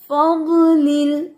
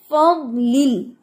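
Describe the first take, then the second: First: फज़लिल with a jolt on the laam; jerky wrong. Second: फज़लिल said steady with no jolt; smooth. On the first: Teacher mimics the student's jerky फज़लिल. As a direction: shake the voice in फज़लिल. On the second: Teacher shows the right smooth फज़लिल. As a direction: keep फज़लिल even. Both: Shown as a demonstration. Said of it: "ऐसे नहीं, झटका नहीं देना".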